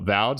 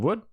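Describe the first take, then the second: First: The name begins with a 'v' sound. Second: The name begins with a 'w' sound. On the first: The speaker calls it right. "I should say" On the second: The speaker calls it wrong. "Got the pronunciation wrong"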